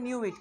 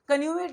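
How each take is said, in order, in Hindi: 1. यह शब्द k की आवाज़ के बिना शुरू होता है। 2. यह शब्द k की आवाज़ के साथ शुरू होता है। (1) "के साइलेंट हो जाएगा" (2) "कन्यूइट नहीं बोलते"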